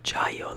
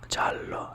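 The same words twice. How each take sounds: First: The double L is said as a Y. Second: The double L is said as an L. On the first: The speaker calls it wrong. "not giallo like Spanish" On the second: The speaker calls it right. "You say the L's"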